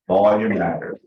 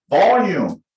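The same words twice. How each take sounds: First: Said in the usual way. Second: Punched loud and higher; loud demonstration. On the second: Shown as a demonstration. Coach announces the next topic, volume, loudly. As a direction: call the word out loudly.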